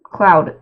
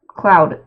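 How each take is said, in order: First: The name rhymes with the word loud. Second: The same.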